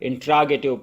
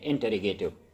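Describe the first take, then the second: First: The word starts with 'intra' before 'gative'. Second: The word starts with 'interro' before 'gative'. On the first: The speaker calls it wrong. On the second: The speaker calls it right.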